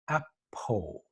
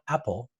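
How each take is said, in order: First: The word ends with a rounded O sound. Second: The word ends with a clear L sound. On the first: The speaker calls it wrong. "I'm making an O sound" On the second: The speaker calls it right. "not apple"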